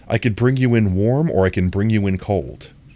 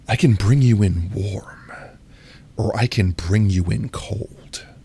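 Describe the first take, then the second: First: It is said in a plain reading voice. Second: It is said in a stern, sultry voice.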